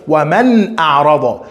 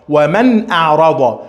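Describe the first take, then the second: No difference in how they are said.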